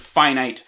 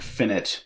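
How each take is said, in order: First: The final syllable rhymes with 'night'. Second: The final syllable rhymes with 'it'. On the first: The speaker calls it right. "we pronounce this word finite" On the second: The speaker calls it wrong. "not pronounce this word finite"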